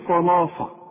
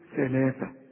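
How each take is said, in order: First: The consonants are heavy s-like sounds, tongue inside. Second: The consonants are th sounds, tongue between teeth. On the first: The speaker calls it wrong. "عمرك ما هتقول لي صلافة أبدا" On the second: The speaker calls it right. "شوف ثلاثة"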